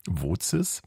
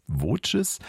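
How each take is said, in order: First: "Woces" with a ts sound in the middle, rising; pronunciation guess. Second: "Woces" with a ch sound, as VOH-ches, rising; pronunciation guess. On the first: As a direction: try "Woces" as VOH-tses, as a question. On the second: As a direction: offer "Woces" as VOH-ches, higher, questioning. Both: Shown as a demonstration. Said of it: "wie werden die denn nun ausgesprochen".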